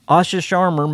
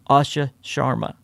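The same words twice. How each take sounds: First: The name is said quickly, without care. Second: The name is said slowly and carefully. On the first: The speaker calls it wrong. "I'm mispronouncing her name a little bit. Y'all forgive me, it's my country accent" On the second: The speaker calls it right. "I have to slow down to pronounce it right"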